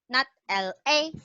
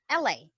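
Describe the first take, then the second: First: The letters L and A are said separately. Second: The letters L and A are joined together. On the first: The speaker calls it wrong. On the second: The speaker calls it right.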